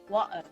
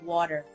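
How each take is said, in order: First: The t is replaced by a glottal stop. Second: The t is pronounced as a clear t. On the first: "it has that little glottal water" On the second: "instead of water"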